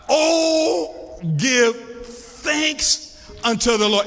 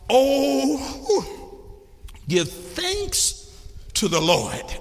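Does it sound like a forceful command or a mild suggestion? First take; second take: command; suggestion. First: It sounds like a forceful, commanding mandate. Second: It sounds like a mild, gentle suggestion.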